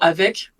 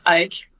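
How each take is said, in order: First: The v sound is clearly pronounced. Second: The v sound is dropped. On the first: "le mot avec" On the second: "on a souvent tendance à dire avec, viens avec moi. On prononce pas le V"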